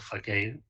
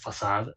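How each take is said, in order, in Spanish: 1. La palabra se dice con pronunciación inglesa. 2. La palabra se dice con pronunciación francesa. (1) "los ingleses pronuncian esto facade" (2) "se pronuncia facade en el lenguaje original"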